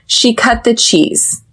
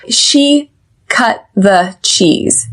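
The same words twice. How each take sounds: First: Said in the usual way. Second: "She cut the cheese" slowly, word by word, stop T in "cut"; slow pronunciation model. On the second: Shown as a demonstration. Teacher showing the sounds, "She cut the cheese" slowly with stop T. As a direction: separate each word, unreleased T in "cut", clear TH in "the". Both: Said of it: "we do pronounce the T H in the".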